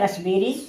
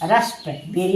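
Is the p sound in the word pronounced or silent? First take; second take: silent; pronounced. First: The p sound is silent. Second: The p sound is clearly pronounced. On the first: The speaker calls it right. "यानी रसबेरी पढ़ेंगे" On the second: The speaker calls it wrong. "यहाँ रस्प बेरी नहीं पढ़ेंगे"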